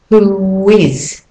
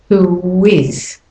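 No difference in how they are said.

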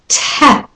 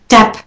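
First: The t is released with a puff of air. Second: The t is released without a puff of air.

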